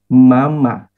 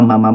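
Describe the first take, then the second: First: The word is said once at normal speed. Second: The word is repeated rapidly in quick succession. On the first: A small child is calling a parent. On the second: It turns into speaking in tongues.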